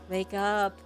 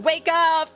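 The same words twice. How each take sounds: First: It is said moderately loudly. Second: It is said loudly.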